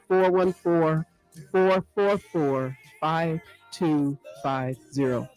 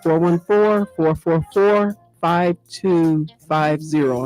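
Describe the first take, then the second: First: The number is said slowly. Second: The number is said quickly.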